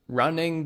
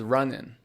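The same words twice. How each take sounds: First: The final g sound is pronounced. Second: The final g sound is dropped.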